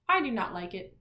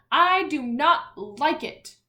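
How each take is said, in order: First: Said in the usual way. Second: "I do not like it" said louder and a bit higher, each word pressed; with emphasis. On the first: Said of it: "you can just say". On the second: Shown as a demonstration. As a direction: say it like it ends in an exclamation point. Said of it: "give it more emphasis".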